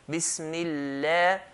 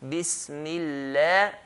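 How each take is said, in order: First: The L is light, with an empty mouth. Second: The L is light, with an empty mouth.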